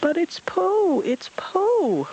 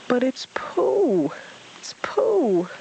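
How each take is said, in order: First: Very high, slow excited yelp; high thrilled yelp. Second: Slow high whispered yell; hushed excited cry; high breathless whisper. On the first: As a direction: yelp with delight. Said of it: "Roo yelped excitedly". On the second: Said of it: "Roo yelled excitedly". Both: Acted.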